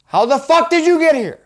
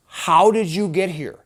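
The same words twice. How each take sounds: First: Very high, fast strained yell; acted-out outburst, pitch shooting way up; retold scream. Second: Higher-pitched demand, held back in volume; first, restrained stage of screaming at yourself; acting out a reproach without full shouting; retold scream at oneself. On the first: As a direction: scream it at yourself in outrage. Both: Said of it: "wanting to scream at myself".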